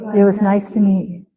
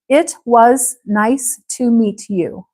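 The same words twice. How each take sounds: First: It is said quickly with softened, blended sounds. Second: It is said slowly with every sound clear. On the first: "a little faster and mushy" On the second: "Listen to the difference"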